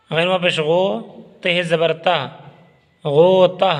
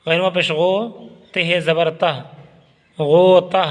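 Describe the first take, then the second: No difference in how they are said.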